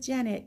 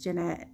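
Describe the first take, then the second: First: "Janet" stressed on the first syllable, JAN-it; mispronounced name. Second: "Jeanette" stressed on the second syllable, juh-NET; correct name pronunciation. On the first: Retold or imitated. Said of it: "it's pronounced Jeanette". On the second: Shown as a demonstration. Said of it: "it's pronounced".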